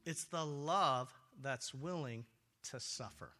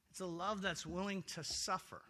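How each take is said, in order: First: "It's the love that's willing to suffer" drawn out slowly, dropping lower and much softer on "to suffer". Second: Said in the usual way. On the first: Acted. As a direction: let "to suffer" sink down to almost nothing.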